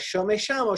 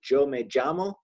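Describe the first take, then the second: First: The word begins with an sh sound. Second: The word begins with a j sound. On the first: "where I lived in Argentina, they pronounce it like a sh" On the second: "in the Caribbean, they kind of pronounce it more like a J"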